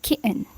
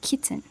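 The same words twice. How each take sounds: First: "kitten" with the t swallowed into a glottal catch and a syllabic n; "kitten" cut short, t in the throat, ending on a bare n. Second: "kitten" with a very light, quick t that almost vanishes, then a syllabic n; soft "kitten", t barely touched, the second syllable collapsed to an n; one and a half syllables. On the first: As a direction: say "kitten" as "ki'n", the second syllable just an n. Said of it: "so it will sound like".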